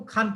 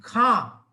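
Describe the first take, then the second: First: खान with a plain full n, Hindi style; Hindi-style khan. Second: खां slow, nasal vowel and no n at the end; Urdu khan. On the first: Teacher shows students the everyday Hindi way, full n. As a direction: say खान the Hindi way, a clear n at the end. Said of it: "हम हिंदी की तरह उसको खान कहते हैं". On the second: Teacher shows the Urdu word to students, nasal aa. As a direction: draw out खां with a nasal aa, no final n. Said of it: "ये उर्दू शब्द है". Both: Shown as a demonstration.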